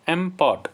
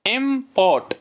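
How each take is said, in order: First: Said in the usual way. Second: "import" raised, in two distinct beats; syllable by syllable. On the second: Shown as a demonstration. Teacher presenting a two-syllable word, syllable by syllable. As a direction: pitch up "import" and separate इम from port. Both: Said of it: "इसमें भी दो syllable हैं".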